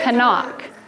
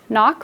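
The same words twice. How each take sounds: First: The word starts with a k then n sound. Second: The word starts with an n sound only. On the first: This is how the word was said long ago. "we used to say knock" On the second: This is how the word is said today. "Instead of knock"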